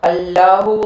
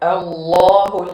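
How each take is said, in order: First: The L sound is thin and light. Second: The L sound is thick and heavy. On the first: The speaker calls it wrong. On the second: The speaker calls it right.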